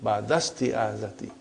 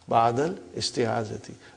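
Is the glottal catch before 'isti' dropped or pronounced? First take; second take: dropped; pronounced. First: The words run together without a glottal catch. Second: A glottal catch separates the two words. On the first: The speaker calls it right. "so it will say Badastiyadati" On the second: The speaker calls it wrong. "for simplicity ... we can say Badal Istiyadati"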